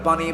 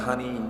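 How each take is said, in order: First: The word begins with a p sound. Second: The word begins with an h sound. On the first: "পানিকে তারা পানি বলতে পারে না" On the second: "পানিকে বলে হানি"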